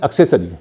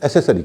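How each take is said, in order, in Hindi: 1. s से पहले k ध्वनि सुनाई देती है। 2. s से पहले कोई k ध्वनि सुनाई नहीं देती। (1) "एक शब्द है एक्सेसरी" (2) "अधिकतर लोग उसे एसेसरी कहते हैं"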